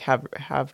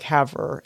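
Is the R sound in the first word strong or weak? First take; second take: weak; strong. First: The R sound is weak or dropped. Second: The R sound is strongly pronounced. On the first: The speaker calls it right. "it's more like have de grace" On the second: The speaker calls it wrong. "You were saying like Haver"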